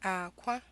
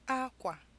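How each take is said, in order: First: A low tone is followed by a high tone. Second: A high tone is followed by a low tone. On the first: It means egg. "a low tone and a high tone" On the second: It means cloth. "a high tone and a low tone"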